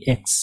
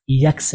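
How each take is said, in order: First: एक्स as a clean "eks"; correct letter name X. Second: यक्स with a y glide, "yaks"; wrong letter name X. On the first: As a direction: open एक्स on e, no y glide. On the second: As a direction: say यक्स the mistaken way, starting on y. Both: Shown as a demonstration. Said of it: "यक्स नहीं".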